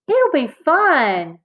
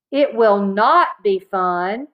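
First: High, drawn-out, upbeat reassurance; eager little-sister persuasion; cheerful coaxing. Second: Slow, deliberate stress on "not"; measured, stubborn denial with "not" drawn out; emphatic contradiction. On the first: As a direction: sing out the encouragement slowly. Sister cheerily persuades angry brother. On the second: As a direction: lean hard on "not" to refute it. Brother flatly contradicts his sister. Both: A narrator's reading.

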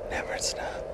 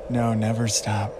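First: Soft breathy whisper. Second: Said in the usual way. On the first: Real, not acted. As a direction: whisper it tenderly. Repeats it in a whisper.

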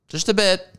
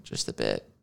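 First: High mock exclamation. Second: Low muttered aside. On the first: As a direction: squeak it up, mock emphatic. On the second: Pretend. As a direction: drop low and soft, under the breath. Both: Repeats phrase in contrasting voices.

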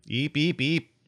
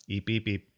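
First: High, rising little eeps; creature chirps. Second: Said in the usual way. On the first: Acted. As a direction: chirp like a small alien pet.

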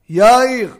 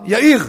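First: "יאיר" stressed on YA, mil'el, first syllable loud; penultimate stress. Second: "יאיר" stressed on IR, milra, last syllable high and loud; final stress. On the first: Rabbi demonstrating wrong mil'el stress to listeners. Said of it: "איך אמרתי אותה? מלעיל". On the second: Rabbi demonstrating correct milra stress to listeners. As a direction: land the stress on the end of "יאיר". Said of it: "איך אני עושה מלרע?". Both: Shown as a demonstration.

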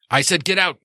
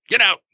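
First: Higher, raised angry order to leave; angry shop owner ordering a visitor out; angry get out. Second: Higher and louder, a sharp repeated order; angry shout. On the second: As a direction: push him out the door with your voice. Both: Acted. Gino throws the guy out.

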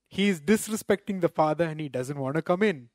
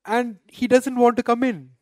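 First: Said in the usual way. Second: Higher and louder, stressing want; emphatic indignant preaching. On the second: Real, not acted. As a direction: cry out that he refused to come in. Repeats the elder son's refusal.

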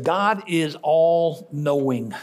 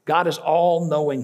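First: "God is all-knowing" drawn out very slowly, each word weighed; slow emphatic. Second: Said in the usual way. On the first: Shown as a demonstration. Pastor driving truth home to congregation, very slow and weighty.

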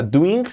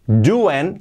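First: "doing" as "du-in", with a tight i; over-literal doing. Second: "doing" as "du-en", G barely there; native-style doing. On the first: Teacher showing what to avoid, "doing" as "du-in". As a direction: say "doing" wrongly with a Spanish i in the ending. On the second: Teacher modelling the gerund, "doing" as "du-en". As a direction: soften the ending of "doing" to "en". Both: Shown as a demonstration. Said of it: "que no sea doing".

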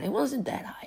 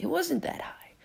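First: Said in the usual way. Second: Whisper. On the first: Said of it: "Let me go back down". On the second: Real, not acted.

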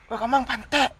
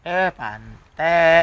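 First: Coarse insulting tone, pitched up; swearing at someone in anger; rude, harsh. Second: Friendly jab. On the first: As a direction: spit it out as a real insult. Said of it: "Ah, pasti kasar ya". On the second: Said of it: "Pasti kayak, "Heh," gitu". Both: Shown as a demonstration.

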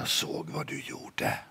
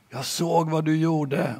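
First: Whisper. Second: Said in the usual way. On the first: Acted. Little sister whispers to her brother, sly whisper.

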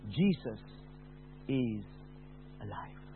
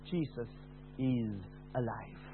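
First: Soft, fading to almost nothing; a tender voice from nowhere; quiet gentle voice. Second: Soft and slow, very hushed; tender whisper-like reassurance; quiet beautiful voice. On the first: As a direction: speak it gently, barely above a breath. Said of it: "beautiful, quiet voice saying". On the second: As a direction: let it fall gently and slowly. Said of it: "the quiet voice, beautiful voice said". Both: Retold or imitated.

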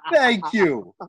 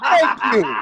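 First: Said in the usual way. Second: Loud, higher thank you; hammed-up cry of thanks; mock grateful shout. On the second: Mock grateful outburst, laughing.

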